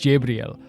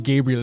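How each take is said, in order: First: The name begins with a J sound. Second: The name begins with a hard G sound. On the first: The speaker calls it right. "it's Jabriel" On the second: The speaker calls it wrong. "it's not supposed to be Gabriel"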